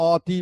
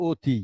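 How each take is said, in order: First: অতি with open aw vowel, aw-ti; spelling pronunciation. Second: অতি as o-ti, closed o; spoken pronunciation. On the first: Teacher shows what we don't say, অতি with open aw. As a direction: start অতি on an open অ sound. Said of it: "আমরা অতি বলছি না". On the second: Teacher shows what we do say, অতি with closed o. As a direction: start অতি on a rounded ও sound. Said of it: "আমরা কি বলছি". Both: Shown as a demonstration.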